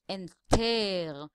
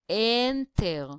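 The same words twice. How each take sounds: First: The stress is on the last syllable. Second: The stress is on the first syllable. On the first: The speaker calls it wrong. "we cannot say enter" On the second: The speaker calls it right. "which means the first syllable, the N, is the stressed one"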